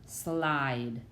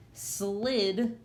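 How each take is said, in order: First: "slide" with a drawn-out "eye" vowel; long-vowel "slide", falling as the answer. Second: "Slid" with a short "ih", held for teaching; short-vowel "Slid", set up for contrast. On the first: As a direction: let the I in "slide" say its name, lower. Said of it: "with that silent E at the end". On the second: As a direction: say "Slid" with the closed vowel, voice lifted. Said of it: "This I is free". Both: Shown as a demonstration.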